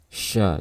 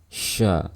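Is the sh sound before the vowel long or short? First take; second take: long; long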